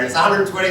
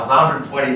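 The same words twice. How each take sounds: First: Repeating the price higher and sharper; a touch of a retold yell; mock scream. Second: Said in the usual way. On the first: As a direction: call it out again, pushier. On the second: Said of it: "I'm going".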